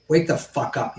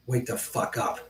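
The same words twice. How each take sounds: First: Said in the usual way. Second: Harsh angry whisper. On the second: Real, not acted. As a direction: hiss it under your breath. Ranting at Q anon viewers.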